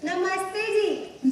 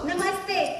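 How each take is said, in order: First: It is said sweetly and shyly. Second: It is said plainly, without shyness.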